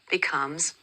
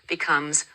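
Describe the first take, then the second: No difference in how they are said.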